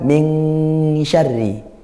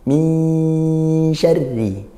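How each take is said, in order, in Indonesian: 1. Bunyi sengau dibunyikan seperti ng di bagian belakang. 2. Bunyi sengau tersembunyi, menyatu ke arah bunyi sh. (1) "ini pelafalan ketika nun sukun bertemu kaf" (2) "samar-samar langsung ke makhrajnya huruf shin"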